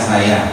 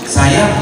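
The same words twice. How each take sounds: First: The word is said flatly, without emphasis. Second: The word is said with strong emphasis. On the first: The speaker calls it wrong. "Tadi kan kamu kata saya, saya. Ya jadi kita begini doang, nanggung doang" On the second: The speaker calls it right. "Jadi intonasinya ada penekanan"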